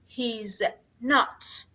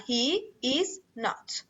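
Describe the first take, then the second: First: The verb is shortened and joined to 'he'. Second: All three words are said in full. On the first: "میتونی فعلت رو مخفف بیاری و ناتت رو کامل بیاری" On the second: "میتونی هر دوشون رو کامل بیاری بدون مخفف"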